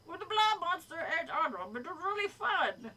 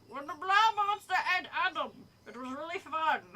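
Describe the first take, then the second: First: Higher-pitched, badly faked New Jersey accent; hammed-up attempt at New Jersey; pretend New Jersey accent. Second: Lightly voiced eager creature; higher, louder start, easing off at the end; green monster figure. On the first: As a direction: fake a Jersey monster enthusing. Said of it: "pretend I'm doing a New Jersey accent". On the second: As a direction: play an enthusiastic monster fan, lightly. Green creature's line, first take.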